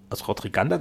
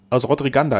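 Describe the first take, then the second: First: "Rodriganda" rising at the end; questioning echo. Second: Said in the usual way. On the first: A narrator's reading. Listener checks the place just named, questioning. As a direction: repeat "Aus Rodriganda" as a question, voice lifting.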